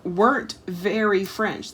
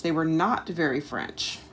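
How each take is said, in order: First: "weren't" drawn out and leaned on; slow emphasis. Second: "not" split off and hit as the key word; "They were NOT very French", the "not" set apart; stress on not. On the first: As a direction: slowly press on "weren't" as you first read it. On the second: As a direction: restate it, leaning hard on "not". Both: Shown as a demonstration.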